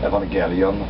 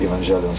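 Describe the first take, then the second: First: It is pronounced in a Japanese-like way. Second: It is pronounced in an Americanized way. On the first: This follows the original Greek-derived form. "That's how they pronounce it in Japan" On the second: This is a personal adapted form. "I would just uh, Americanize a little bit"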